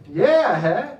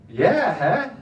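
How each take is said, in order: First: Loud bluffing yeah huh; fake understanding. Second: Loud bluffing yeah huh with a laugh; fake understanding. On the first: Comedian bluffing through Dutch conversations, loud laughing. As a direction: pretend you got it. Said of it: "but I say". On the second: Friend's advice for bluffing through Dutch talk, loud laugh. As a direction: nod along without a clue. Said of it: "is just say".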